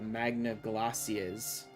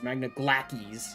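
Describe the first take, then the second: First: The c in Glacies is said soft. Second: The c in Glacies is said like k. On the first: This is how the name feels natural to say. "Every fiber of my being wanted to call the" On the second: This is the official pronunciation. "when you make me say Glackies"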